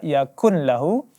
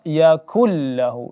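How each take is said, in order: First: The n sound is clearly heard before the l. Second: The n merges fully into a doubled l. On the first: The speaker calls it wrong. "tidak dibaca yakun lahu" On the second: The speaker calls it right. "tapi langsung kita baca yakullahu, idgham bila gunnah"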